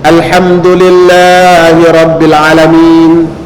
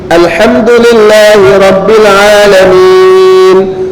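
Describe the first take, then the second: First: The vowel in Alamin is cut short. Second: The vowel in Alamin is held long. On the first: The speaker calls it wrong. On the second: The speaker calls it right.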